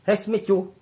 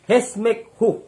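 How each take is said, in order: First: The last syllable starts with a ch sound. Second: The last syllable starts with a k sound. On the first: The speaker calls it wrong. "hindi Hesmichu" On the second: The speaker calls it right. "Yun ang tamang pagbigkas"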